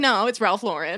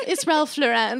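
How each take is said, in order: First: "Lauren" as LOR-en, first syllable stressed; plain American "Lauren", weight on LOR; corrected Ralph Lauren. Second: Higher, "Lauren" as lo-REN with a full last vowel; mispronounced Ralph Lauren. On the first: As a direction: say "Ralph Lauren" with a weak, short last syllable. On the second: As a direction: say "Lauren" French-style, weight on REN. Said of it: "biggest pet peeve is when someone goes". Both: Retold or imitated.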